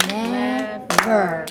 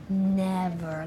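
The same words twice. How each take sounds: First: "Never" split into two firm beats; clapped syllables. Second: Said in the usual way. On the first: Shown as a demonstration. Teacher has class count syllables, "Never" clapped out in two parts. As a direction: break "Never" evenly as Ne, ver. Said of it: "Let's clap that out". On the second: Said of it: "So I'm gonna say it slowly".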